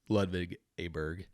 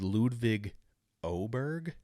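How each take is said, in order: First: The surname begins with an 'ah' vowel. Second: The surname begins with an 'oh' vowel. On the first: This is the old, mistaken way of saying the name. The speaker calls it wrong. "they've been pronouncing it wrong" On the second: This is the corrected way of saying the name. The speaker calls it right. "I guess is how they're supposed to pronounce it"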